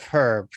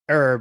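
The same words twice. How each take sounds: First: It is said with a non-American pronunciation. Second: It is said with an American pronunciation. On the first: "instead of herb" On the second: "the way Americans say herb"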